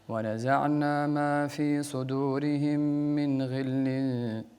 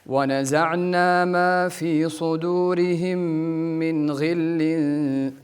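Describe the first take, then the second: First: It is recited with little energy. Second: It is recited with much more energy.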